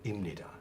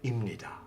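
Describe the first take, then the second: First: The p sound blends into a nasal sound. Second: The p sound blends into a nasal sound.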